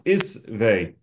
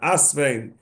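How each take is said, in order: First: The word begins with an i vowel. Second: The word begins with an a vowel. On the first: The speaker calls it right. "the proper pronunciation is isve" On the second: The speaker calls it wrong. "the proper pronunciation is not asvein"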